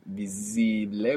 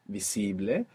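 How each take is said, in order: First: The middle consonant is a buzzing Z sound. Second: The middle consonant is a hissing S sound. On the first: The speaker calls it wrong. "putting that Z there from English" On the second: The speaker calls it right. "We want visible"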